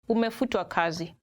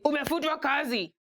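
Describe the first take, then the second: First: It is said in a gentle, polite tone. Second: It is said in a blunt, harsh tone.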